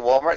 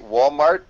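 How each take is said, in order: First: It is said with an American accent. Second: It is said with a Korean accent. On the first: "we would say" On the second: "in Korea they would say"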